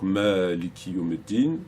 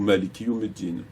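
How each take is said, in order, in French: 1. La voyelle après le premier m est longue. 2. La voyelle après le premier m est courte. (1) "après le mime, un mad" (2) "sans mad"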